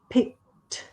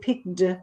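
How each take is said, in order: First: The ending is a clear t sound. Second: The ending is not a clear t sound. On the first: The speaker calls it right. "it's actually picked with the T sound" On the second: The speaker calls it wrong. "I heard before you said picked"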